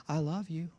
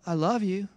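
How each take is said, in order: First: Quiet tender I love you; calm loving answer; soft loving reply. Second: Soft loving reply. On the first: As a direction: say it gently. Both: Shown as a demonstration. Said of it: "let's just say".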